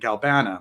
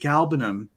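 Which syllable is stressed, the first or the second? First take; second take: second; first. First: The stress is on the second syllable. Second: The stress is on the first syllable. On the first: The speaker calls it wrong. "pushing that second syllable out kind of makes the words awkward" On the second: The speaker calls it right. "rolls so much better"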